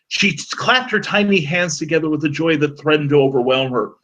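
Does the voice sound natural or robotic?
natural. It is read in a natural human voice.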